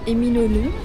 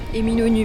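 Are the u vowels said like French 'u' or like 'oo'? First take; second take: oo; French u. First: The u vowels sound like 'oo'. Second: The u vowels sound like French 'u'. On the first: The speaker calls it wrong. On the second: The speaker calls it right.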